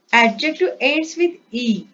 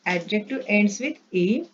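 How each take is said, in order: First: "adjective ends with E" said louder with a falling close; "adjective ends with E" punched out as the key rule; emphatic first statement. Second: Said in the usual way. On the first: Shown as a demonstration.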